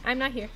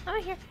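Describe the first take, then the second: First: Said in the usual way. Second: Tiny high voice, trying to vanish; high hiding squeak. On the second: Real, not acted. Hiding from killer, high take.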